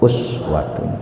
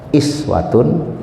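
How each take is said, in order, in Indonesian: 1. Vokal pertamanya bunyi u. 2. Vokal pertamanya bunyi i. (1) "boleh dibaca dhammah" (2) "boleh dibaca kasrah"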